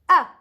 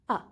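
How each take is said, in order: First: The pitch starts high and falls sharply. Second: The pitch is short and unmarked, neutral. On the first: "you go from up, up, up, then you go down with your voice" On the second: "You just pronounce it ah without anything"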